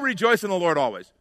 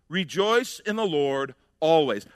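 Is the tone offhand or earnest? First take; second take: offhand; earnest. First: It is said offhandedly, like a platitude. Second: It is said earnestly, like a serious command.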